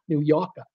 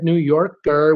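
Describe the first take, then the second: First: Softly imitated Boston accent, final R dropped. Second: Said in the usual way. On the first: Streamer amused by a viewer's comment, trying a Boston accent. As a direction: say it quietly in a mock Boston accent. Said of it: "with a Boston accent". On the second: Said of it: "he said New Yorker".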